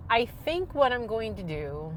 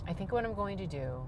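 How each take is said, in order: First: Said in the usual way. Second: Calmer, softer restart of the line; talking lower. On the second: Shown as a demonstration. Calming herself down for the camera, speaking softer. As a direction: bring it down, calm and lower. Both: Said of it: "talk, talk lower".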